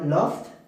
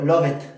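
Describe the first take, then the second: First: The word ends with a t sound. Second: The word ends with an extra id syllable. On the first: "eso estoy pronunciando con la T" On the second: "incorrecto, la forma incorrecta"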